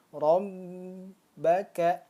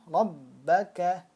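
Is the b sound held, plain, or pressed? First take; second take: held; pressed. First: The b is held for a long time. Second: The doubled b is pressed firmly but briefly. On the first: The speaker calls it wrong. "contoh yang salah seperti ini" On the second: The speaker calls it right. "ditekan kan?"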